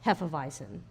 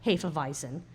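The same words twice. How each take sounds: First: Hefeweizen starting "heff-uh"; short "eh" opening on Hefeweizen. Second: Hefeweizen starting "hay-fuh"; long "ay" opening on Hefeweizen. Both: Shown as a demonstration. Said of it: "how do you pronounce Hefeweizen".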